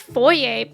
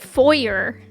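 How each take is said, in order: First: The word is pronounced in a French-sounding way. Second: The word is pronounced in an American way. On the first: "when I said the word foyer, my dad was like, foyer? Are you French?" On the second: "what's the American pronunciation? And my dad was like, foyer"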